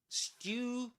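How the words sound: It is said in a British accent. "British English"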